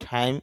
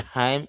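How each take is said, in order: No difference in how they are said.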